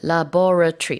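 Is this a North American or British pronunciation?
British. It is said with a British accent.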